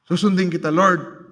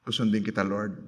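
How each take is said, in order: First: Full-voiced, falling, resolute vow; preacher voicing a confident bargain with God; firm declared promise. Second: Softer, lower, hesitant promise to God; quietly bargaining with God; soft pleading prayer. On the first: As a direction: state it firmly like a vow. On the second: Retold or imitated. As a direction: murmur the promise like a timid prayer. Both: Hindi yung, wrong prayer attitude.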